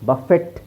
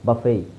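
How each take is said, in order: First: The word ends with a t sound. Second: The word ends without any t sound. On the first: The speaker calls it wrong. "ಬಫೆಟ್ ಅಂತ ಹೇಳಲ್ಲ" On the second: The speaker calls it right. "ಟಿ silent"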